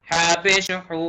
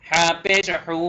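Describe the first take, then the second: The two takes are said the same way.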